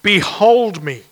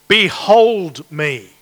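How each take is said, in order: First: "Behold me" slow and louder, weight on "Behold"; emphatic behold. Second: "Behold me" slow, with heavy weight on "Behold"; emphatic behold. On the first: Preacher reading verse on screen, slow emphatic "Behold me". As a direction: proclaim "Behold" deliberately. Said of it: "the you in the verse is particularly emphatic". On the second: Preacher reading God's words, slow emphatic "Behold me". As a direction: draw out "Behold" solemnly. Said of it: "Watch me, in other words". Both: Shown as a demonstration.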